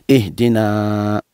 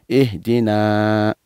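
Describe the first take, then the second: The two takes are said the same way.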